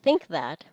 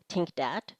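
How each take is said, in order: First: Both words begin with th sounds. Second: Both words begin with t and d sounds.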